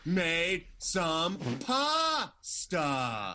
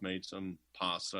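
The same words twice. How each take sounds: First: It is said loudly, syllable by syllable. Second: It is said casually at normal volume.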